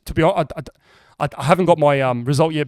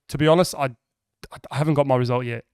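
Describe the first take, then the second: First: It is said with stuttering and hesitant fillers. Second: It is said fairly smoothly and confidently. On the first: "I said it as like stutter" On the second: "I didn't say it like that. That was fucking good"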